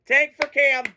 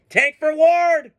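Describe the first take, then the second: First: Said in the usual way. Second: Higher, slow drawn-out chant; mock chant. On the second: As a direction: chant it like a fan rally cry. Chanting for a draft pick.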